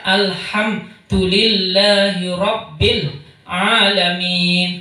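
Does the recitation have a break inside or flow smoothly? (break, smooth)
break. A brief stop breaks the flow between sounds. The speaker calls it wrong. "haram. Karena ini wakaf. Wakafnya wakaf sejenak"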